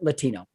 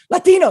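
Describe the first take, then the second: First: The word is said softly and plainly. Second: The word is said sharply and explosively. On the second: "will surprise you like a gunshot"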